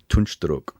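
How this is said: The name is said the Turkish way.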